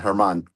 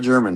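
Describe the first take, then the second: First: The name begins with an H sound. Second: The name begins with a J sound. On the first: The speaker calls it right. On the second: The speaker calls it wrong. "not German"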